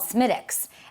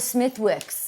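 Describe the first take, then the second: First: The th and w sounds are left silent. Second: The th and w sounds are fully pronounced. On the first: The speaker calls it right. "it's called Smittix" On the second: The speaker calls it wrong. "I know it's not Smithwick's"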